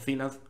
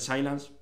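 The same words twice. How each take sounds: First: The name is pronounced with Spanish sounds. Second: The name is pronounced with English sounds.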